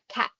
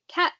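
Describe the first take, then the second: First: The final consonant is made at the mouth's back. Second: The final consonant is made at the mouth's front. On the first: "putting that T sound all the way to the back" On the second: "sounds at the front of our mouth like cat"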